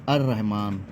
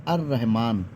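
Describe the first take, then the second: First: The l merges into a doubled r sound. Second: The same.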